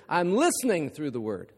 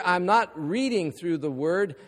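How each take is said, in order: First: Listening stressed as the answer to the not-line. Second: Not pressed hard, then a falling close; stress on not. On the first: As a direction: land the contrast on the word listening. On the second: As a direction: lean on the word not to set up the contrast. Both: Shown as a demonstration.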